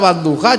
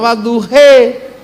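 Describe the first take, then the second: First: It is said in a standard Arabic pronunciation. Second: It is said with an Andalusian accent.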